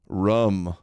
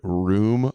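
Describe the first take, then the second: First: The word has a short vowel, like 'rum'. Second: The word has the usual long 'oo' vowel. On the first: The speaker calls it wrong. "How does she mispronounce so many words that are so common?" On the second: The speaker calls it right. "Candace can't pronounce the worm the word room apparently"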